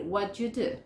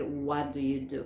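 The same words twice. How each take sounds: First: WHAT YOU merged into "whatchu"; connected native-style "whatchu do"; native assimilation. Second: WHAT DO YOU DO slow and fully separate; low, careful WHAT, then DO YOU unmerged; every word of WHAT DO YOU DO in full. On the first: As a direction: blend WHAT YOU with a CH sound. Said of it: "Cualquier nativo te va a decir". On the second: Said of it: "Nadie te va a decir". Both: Shown as a demonstration.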